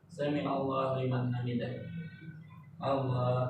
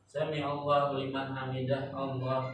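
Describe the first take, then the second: First: There is a calm resting pause before Allah. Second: It runs on with no resting pause.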